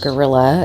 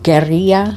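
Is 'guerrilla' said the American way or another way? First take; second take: American; non-American. First: It is said with an American pronunciation. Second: It is said with a non-American pronunciation.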